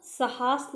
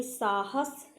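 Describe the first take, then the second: First: साहस said as 'sa-HAAS'; short first, long second a in साहस; misplaced long vowel. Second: साहस said as 'SAA-has'; long first vowel. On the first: (साहस को 'सहास' बोलें) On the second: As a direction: stretch the first a of साहस, short second. (साहस में 'सा' लंबा) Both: Shown as a demonstration. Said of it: "साहस नहीं".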